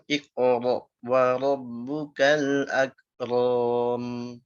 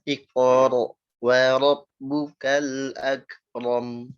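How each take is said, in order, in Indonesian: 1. Akhirannya ditarik dan dipanjangkan. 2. Akhirannya pendek dan berhenti dengan bersih. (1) "Jangan iqra wa rabbukal akram" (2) "pendek ya, jangan dipanjangin"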